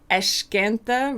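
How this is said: The s sounds like sh, Rio style.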